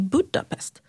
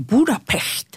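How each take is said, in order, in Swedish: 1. Det uttalas med ett vanligt svenskt uttal. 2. Det uttalas med ett ungerskt uttal. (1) "istället för att säga" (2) "uttalar saker så som det låter i det landet"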